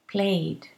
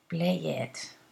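First: The ending is a plain d sound. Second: The ending is an extra syllable. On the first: The speaker calls it right. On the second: The speaker calls it wrong.

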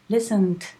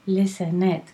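First: The word ends in a hard t sound. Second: The word ends in an extra id syllable. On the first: The speaker calls it right. "then say it with a T, listened. It's stronger, but it's okay" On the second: The speaker calls it wrong. "What is not okay is listen it. Okay, that's terrible"

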